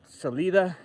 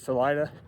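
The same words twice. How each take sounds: First: The name is said as its spelling suggests. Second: The name is said the local Colorado way.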